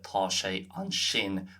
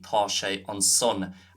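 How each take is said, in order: First: It has the standard Irish 'sh' sound. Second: It has the Munster 's' sound, not 'sh'.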